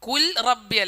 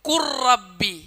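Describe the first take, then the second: First: The l is pronounced clearly before the r. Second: The l merges fully into the following r. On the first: The speaker calls it wrong. "കുൽ റബ്ബി അല്ല" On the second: The speaker calls it right. "ഇദ്ഗാമാണ്"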